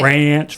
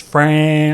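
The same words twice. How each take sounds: First: Ranch with the R sliding toward an F; ranch said like French. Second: French with the F smeared toward an R; French said like ranch. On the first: Answering a friend, Ranch said to blur into French. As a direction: say Ranch so it nearly sounds like French. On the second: Answering a friend, French said to blur into ranch. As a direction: say French so it nearly sounds like ranch. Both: Shown as a demonstration. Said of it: "French and ranch?".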